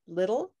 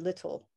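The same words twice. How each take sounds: First: The middle T sounds like a quick D. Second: The middle T sounds like a clear T. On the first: "When it's between two vowel sounds, it sounds like a like a D almost" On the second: "usually I pronounce them more in British English, like cant or little"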